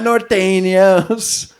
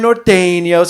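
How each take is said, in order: First: It is said with exaggerated, heavy Spanish sounds. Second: It is said plainly, without exaggerated Spanish sounds.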